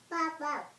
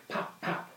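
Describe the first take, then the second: First: Squeaky high pops; high cork pops. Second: Breathy voiceless pops; soft popping lips; whispered pop. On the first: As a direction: pop it up high and cute. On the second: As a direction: pop it without voice like a cork. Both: Acted. Cork sound for the baby.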